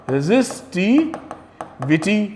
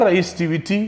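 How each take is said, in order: First: "resistivity" drawn out in slow, separate parts; slow dictation. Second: Said in the usual way. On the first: Shown as a demonstration. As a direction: stretch out "resistivity" for note-takers, pausing before the last part. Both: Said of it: "ये क्या होता है".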